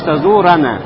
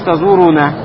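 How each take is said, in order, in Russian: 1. Гласная после r — a. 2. Гласная после r — u. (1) "а говоришь тазурана" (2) "Уже не говоришь тазуруна"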